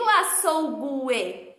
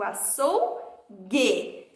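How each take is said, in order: First: A 'w' sound is heard after the g. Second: No 'w' sound is heard after the g. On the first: The speaker calls it wrong. "eu não digo açougue" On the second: The speaker calls it right. "eu digo açougue"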